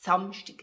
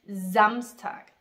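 First: The first S is voiceless, without buzzing. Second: The first S is voiced, with buzzing. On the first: This is the Swiss German pronunciation. "We don't have that. We say Samstag" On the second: This is the standard German pronunciation. "The Germans, they say Samstag with this kind of S, stimmhaftes S"

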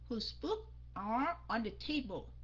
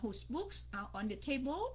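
First: The voice falls at the end. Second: The voice rises at the end. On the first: The speaker calls it right. "you have to lower your voice at the end" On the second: The speaker calls it wrong. "Mình không có nói là"

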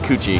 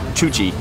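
First: The name begins with a 'k' sound. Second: The name begins with a 'ch' sound. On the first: The speaker calls it right. "but it's not, it's Kuchi" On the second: The speaker calls it wrong. "My Indonesian brain was trying to pronounce it Chuchi"

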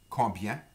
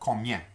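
First: The B sound is pronounced in the word. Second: The B sound is left out of the word. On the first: "it's got a B in it" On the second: "sometimes the B is not pronounced in certain regions"

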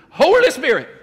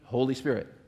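First: It is said in an exaggerated, fervent preacher style. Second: It is said in a plain, ordinary way. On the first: "say it like you're from a charismatic church" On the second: "Everybody say it with me"

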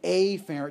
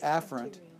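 First: The first syllable is exaggerated and drawn out. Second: The first syllable is said in a relaxed way. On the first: It makes the prefix stand out clearly. "I'm going to say afferent just to overemphasize it" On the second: This is the everyday way of saying it. "Most people would just say afferent"

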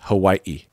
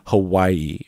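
First: A glottal stop breaks the middle syllables. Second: A Y-like glide joins the middle syllables. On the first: The speaker calls it right. "There's a glottal stop, or I don't know what you call it, but there's a little gap" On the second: The speaker calls it wrong. "Like there's a Y in there"

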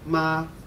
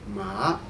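First: The pitch stays high and level. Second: The pitch rises from mid to high.

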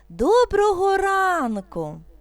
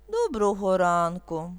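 First: The greeting sounds joyful and bright. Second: The greeting sounds sad and downcast. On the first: "Радісно" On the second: "Сумно"

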